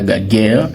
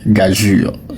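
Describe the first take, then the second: First: It ends with a hard 'guerre' sound. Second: It ends with a soft 'jur' sound. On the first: The speaker calls it wrong. "ce n'est pas gaguerre" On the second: The speaker calls it right. "il se prononce gageure"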